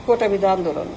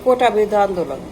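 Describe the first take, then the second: No difference in how they are said.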